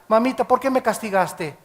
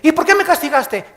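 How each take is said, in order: First: The question is asked in a gentle, respectful tone. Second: The question is asked in a rude, defiant tone.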